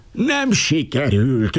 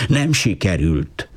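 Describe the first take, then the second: First: Higher, slow, raging wail. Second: Slow, despairing mock shout; desperate shout. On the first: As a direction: rage at the failure, drawn out. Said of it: "őrjöngött az Alabarkosz". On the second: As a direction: cry it out in despair, lightly. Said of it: "elkeseredve kiabálta". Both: A narrator's reading.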